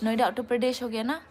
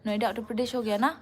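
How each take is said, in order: Both takes have the same delivery.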